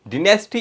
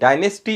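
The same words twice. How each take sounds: First: It is said with a British pronunciation. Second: It is said with an American pronunciation. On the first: "dynasty is the British pronunciation" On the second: "dynasty is the American pronunciation"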